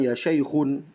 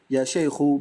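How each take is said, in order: First: The word ends with a final n sound. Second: The word ends without a final n sound. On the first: The speaker calls it wrong. "bukan ya syaikhun" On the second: The speaker calls it right. "yang benar itu ya syaikhu"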